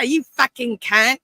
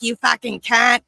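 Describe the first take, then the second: First: Slow, higher and louder, stretched-out playful jab; hammed-up insult. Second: Louder, higher playful jab in an Australian-style insult; mock insult. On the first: Repeating the insult to his cohost, slow and hammed-up. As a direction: drag it out for laughs, hamming it up. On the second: Showing how he shocks Americans, with a loud mock insult. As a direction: fling it out like friendly banter. Acting out casual insult to friends.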